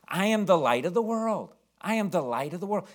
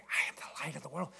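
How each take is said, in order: First: Said in the usual way. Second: Hushed unvoiced whisper of the line. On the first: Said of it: "he's supposed to be saying". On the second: Mother prompting her frozen son from the second row, whispering. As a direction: breathe the words with no voice at all. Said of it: "And she's whispering".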